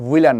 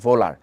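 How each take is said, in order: First: The name begins with a w sound. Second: The name begins with a v sound. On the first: The speaker calls it wrong. "ওটা কিন্তু হুইলার না" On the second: The speaker calls it right. "ওনার নামের উচ্চারণ হচ্ছে ভোলার"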